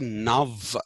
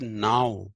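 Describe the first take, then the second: First: The word ends with a v sound. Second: The word ends with an ow sound. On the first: The speaker calls it wrong. "you don't say nav" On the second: The speaker calls it right. "you say now"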